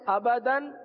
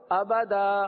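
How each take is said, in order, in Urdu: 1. یہ لفظ ن کی آواز پر ختم ہوتا ہے۔ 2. یہ لفظ لمبی الف کی آواز پر ختم ہوتا ہے۔ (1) "کیا پڑھتے ہیں؟" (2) "آگے وقف آبادا"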